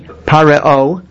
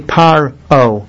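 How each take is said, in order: First: A short extra vowel is sounded after the r. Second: No extra vowel is sounded after the r. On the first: The speaker calls it wrong. "you don't say pareo" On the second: The speaker calls it right. "You say paro"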